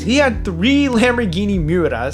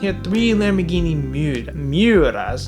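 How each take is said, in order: First: The phrase is said at a quicker pace. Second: The phrase is said at a slower pace. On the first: The speaker calls it wrong. "I know that sounded so bad" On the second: The speaker calls it right. "I had to say it slower"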